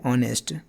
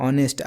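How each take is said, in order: First: The word begins directly with a vowel sound. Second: The word begins directly with a vowel sound.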